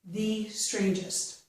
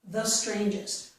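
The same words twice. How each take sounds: First: The word 'the' is said with a long 'ee' vowel. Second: The word 'the' is said with a short 'uh' vowel. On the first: The idea is being emphasized. "if I want to stress my ideas, then I would use E" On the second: Nothing is being emphasized. "normally without stressing anything, I would use a"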